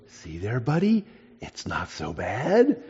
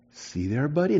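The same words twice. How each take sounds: First: Very soft, slow, tender reassurance; soothing the lizard. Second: Soft, much quieter coaxing to a pet; soothing the lizard. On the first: Boy stroking his lizard, quiet and slow comfort. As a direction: murmur comfort to a frightened pet. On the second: Boy calming his tame lizard, quiet and tender. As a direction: hush and reassure a scared little creature. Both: Retold or imitated.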